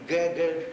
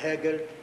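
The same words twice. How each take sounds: First: Both G sounds follow the Russian pattern. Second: The first and second G sounds differ. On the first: The speaker calls it wrong. "неправильно по-російському" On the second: The speaker calls it right. "перше «Г», друге «Г»"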